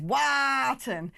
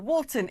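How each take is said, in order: First: Wharton with a long drawn-out aah, WAAH-tun; exaggerated local Wharton, WAAAH-tun; local pronunciation. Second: Wharton said as WAW-tun; standard pronunciation. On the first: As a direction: stretch the first vowel of Wharton wide. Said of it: "around here it's pronounced". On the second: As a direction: say Wharton with an ordinary aw vowel. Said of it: "except around here it's pronounced". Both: Shown as a demonstration.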